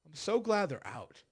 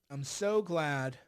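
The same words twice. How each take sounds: First: Said in the usual way. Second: So glad said slowly, every word stretched; drawn-out glad. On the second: Shown as a demonstration. Gloating to viewers, slow drawn-out so glad. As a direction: savour the words, very slow. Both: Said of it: "I'm just so glad".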